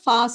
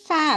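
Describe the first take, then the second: First: The vowel is an open 'ah' sound. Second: The vowel is flatter, like the vowel in cat. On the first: "நம்ம வந்து ஃபா சொல்லுவோம்" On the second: "US இங்கிலீஷில் ஃபே அப்படி சொல்லுவாங்க"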